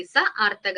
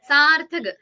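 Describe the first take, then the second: First: സ ആർത്ഥക് said as two parts, സ then ആർത്ഥക്; teacher splitting സ ആർത്ഥക് into its parts; split into parts. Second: Said in the usual way. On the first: Shown as a demonstration. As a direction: break സ ആർത്ഥക് apart to show its pieces. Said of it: "അർത്ഥത്തോടു കൂടി വരുന്നത്". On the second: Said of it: "അർത്ഥമുള്ള ധ്വനി".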